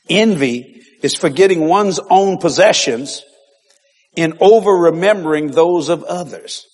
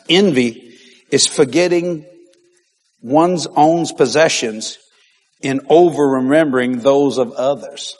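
First: Slightly slow, steadier repeat; repeated dictation. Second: Slow, deliberate dictation pace. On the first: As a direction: say it once more, a bit more evenly. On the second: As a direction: spell it out slowly so they can write. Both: Shown as a demonstration. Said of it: "write this down".

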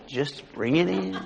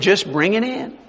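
First: Much softer, drawn-out retold instruction; hushed and unhurried, savouring the words; soft, slow repeat. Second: Said in the usual way. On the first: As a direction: let it sink away slowly and quietly. Retold order repeated, trailing softly.

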